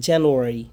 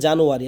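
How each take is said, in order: First: Careful জানুয়ারি opening on "jen", not "jaan"; correct pronunciation. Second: Everyday জানুয়ারি opening on broad "a"; usual mispronunciation. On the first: Teacher gives the actual pronunciation, correct pronunciation. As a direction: say জানুয়ারি as "jenuari", first vowel "e". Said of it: "আসলে উচ্চারণ জানুয়ারি". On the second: Teacher shows what we commonly say, usual mispronunciation. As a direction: say জানুয়ারি with "jaa" in the first syllable. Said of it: "আমরা বলি জানুয়ারি". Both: Shown as a demonstration.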